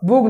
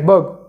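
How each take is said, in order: First: The vowel sounds like oo. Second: The vowel sounds like uh. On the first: The speaker calls it wrong. "नाही" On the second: The speaker calls it right. "यूचा उच्चार अ"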